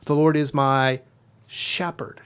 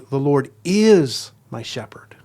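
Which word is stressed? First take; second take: shepherd; is. First: The stress is on the word shepherd. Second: The stress is on the word is.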